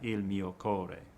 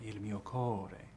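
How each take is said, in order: First: The first syllable of 'core' gets no lean. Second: The first syllable of 'core' is leaned on. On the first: The speaker calls it wrong. "not il mio core" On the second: The speaker calls it right. "there's always a lean, an appoggia, on the usually the penultimate syllable"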